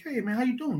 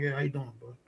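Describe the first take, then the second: First: Higher-pitched, chummy imitated hello; friendly greeting. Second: Low, quiet, offhand greeting back; reply politely with little interest. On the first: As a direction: greet like an overfriendly stranger. Acting out stranger's friendly greeting. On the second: Retold or imitated. His reluctant reply to the stranger.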